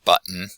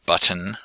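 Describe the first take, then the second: First: The middle t becomes a glottal stop. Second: The middle t is clearly pronounced. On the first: "normally with the glottal stop in there" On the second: "very carefully"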